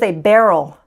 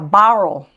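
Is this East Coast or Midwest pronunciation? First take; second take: Midwest; East Coast. First: It is said with a Midwest accent. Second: It is said with an East Coast accent.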